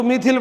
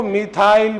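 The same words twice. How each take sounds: First: मिथिल with a short "i" before the l; short-i pronunciation. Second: मिथाइल with an "aa-i" glide before the l; long-i pronunciation. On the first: Teacher showing how other children read it, मिथिल ending in short "-thil". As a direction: end मिथिल in "-thil", no glide. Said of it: "कुछ बच्चे इसको मिथिल पढ़ते". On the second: Teacher showing how some children read it, मिथाइल ending in "-thail". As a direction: end मिथाइल like English "while". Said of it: "कुछ बच्चे इसको मिथाइल पढ़ते". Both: Shown as a demonstration.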